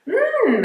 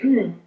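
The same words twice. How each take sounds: First: The mm sounds interested. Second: The mm sounds like simple agreement. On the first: The listener is curious about what is said. "it's more of an interested sound" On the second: The listener is just agreeing and listening. "If we're just agreeing and listening"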